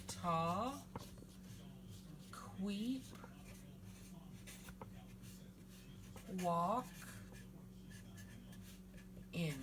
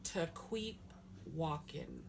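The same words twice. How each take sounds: First: "Ta, queep, walk, in", each syllable alone with long pauses; sounded out. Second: Said in the usual way. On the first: Shown as a demonstration. Teacher sounding out "Ta, queep, walk, in" for learners, syllable by syllable. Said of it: "I'll sound that out for you". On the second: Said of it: "So I'll sound that out for you".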